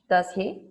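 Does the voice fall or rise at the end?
fall. The pitch falls at the end of the tag. The speaker already knows the answer. "if you already know the answer"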